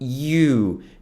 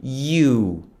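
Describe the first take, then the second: Both takes have the same delivery.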